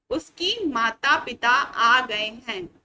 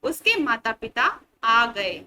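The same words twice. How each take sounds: First: Said slowly and loud as the wrong version; slow wrong example. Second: Said slowly and loud as the right version; slow corrected sentence. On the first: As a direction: read out the mistake slowly: "उसकी माता पिता आ गए हैं". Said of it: "जो कि एक गलत वाक्य है". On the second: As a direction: model the corrected "उसके माता पिता आ गए।" slowly. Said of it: "शुद्ध उच्चारण करके क्या पढ़ेंगे". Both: Shown as a demonstration.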